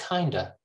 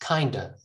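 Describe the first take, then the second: Both takes have the same delivery.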